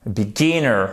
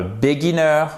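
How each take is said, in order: First: "Beginner" with short i and the stress on "gin"; careful English "Beginner", stressed on the second syllable; correct tonic stress. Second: "beginner" said wrongly as "béguineur", French-style; learner's botched "béguineur" for "beginner"; mispronounced beginner. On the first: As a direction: hit the middle of "Beginner": bi-GI-nner. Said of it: "vous avez l'accent tonique là". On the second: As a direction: say "beginner" with an é in the first syllable and a French ending. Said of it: "Et c'est pas un". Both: Shown as a demonstration.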